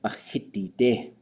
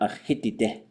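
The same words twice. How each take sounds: First: The final vowel is held long. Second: The final vowel is kept short. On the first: The speaker calls it right. "it should have to get pushed long" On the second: The speaker calls it wrong.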